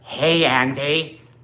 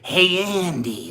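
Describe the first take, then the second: First: It is said in a flat, robotic character voice. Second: It is said in a natural, lively character voice. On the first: "Brad Dourif doing Chucky as a robot" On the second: "instead of like"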